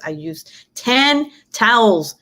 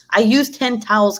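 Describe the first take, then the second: First: "ten" stretched out slowly and punched; slow, emphatic "ten towels", each word set apart; stress on TEN. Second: Said in the usual way. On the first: Real, not acted. Telling viewers about the puddle cleanup, slow stress on "ten".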